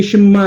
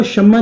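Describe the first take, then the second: First: شمع said as sham-a, with a single m and a short break before the a; correct pronunciation. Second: شمع said as shamma, with a doubled m; wrong pronunciation. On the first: Teacher showing students the correct شمع, careful pronunciation. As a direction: say شمع the right way, without doubling the m. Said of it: "شمع نہیں ہے، یہ شمع ہے". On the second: Teacher showing students the wrong شمع, mock-wrong pronunciation. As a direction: say شمع the wrong way, leaning on a long mm. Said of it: "شمع نہیں ہے". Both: Shown as a demonstration.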